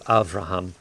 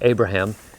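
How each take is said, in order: First: The middle consonant is a V sound. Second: The middle consonant is a B sound. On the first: This is the Hebrew form of the name. "the Hebrew Avraham" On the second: This is the English form of the name. "the English pronunciation of the name Abraham"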